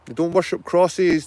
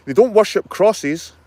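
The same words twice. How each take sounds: First: Said in the usual way. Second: "don't" hit high and loud, slowed down; emphatic "don't". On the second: Real, not acted. Vlogger insisting the Wee Frees shun idols, stressing "don't". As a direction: punch "don't" hard, slowly.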